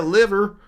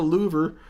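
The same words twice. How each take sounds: First: Said in the usual way. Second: "louver" with a long oo, LOO-ver; mispronounced liver. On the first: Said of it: "you say a liver". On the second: Shown as a demonstration. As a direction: stretch the first vowel of "louver" into oo. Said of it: "not a louver".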